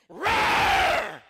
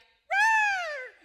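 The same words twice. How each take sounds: First: It is roared in a deep, manly voice. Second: It is roared in a high-pitched voice.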